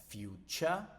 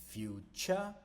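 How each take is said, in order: Both takes have the same delivery.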